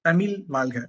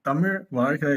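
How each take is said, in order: First: The zh sounds are said as plain l. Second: The zh sounds are said as retroflex zh. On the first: The speaker calls it wrong. "ஏடா உனக்கு ழானா கூட வரல" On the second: The speaker calls it right. "இல்ல"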